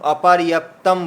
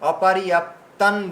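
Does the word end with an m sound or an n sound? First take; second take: m sound; n sound. First: The word ends with a closed m sound. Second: The word ends with a nasal n sound. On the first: The speaker calls it wrong. "আপনারা অনেকেই তাম অপারিয়াপ্তাম বলেছেন" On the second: The speaker calls it right. "আমি এখানে অনুস্বরে অপারিয়াপ্তান দিয়েছি"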